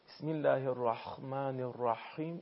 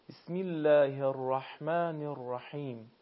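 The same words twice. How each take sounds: First: The h sound is harsh and rasping, like kh. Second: The h sound is soft and breathy, not rasping. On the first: The speaker calls it wrong. "حرف ح رو تبدیل به حرف خ بکنه، یعنی به این شکل که ... این اشتباهه" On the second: The speaker calls it right. "پس دقت بکنیم حرف درشت و پرحجم نشه و تبدیل به صدای حرف خا هم نشه"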